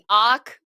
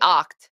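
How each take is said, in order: First: The word ends without a T sound. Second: The word ends with a clear T sound. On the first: "you get rid of the T when you say" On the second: "I say the T"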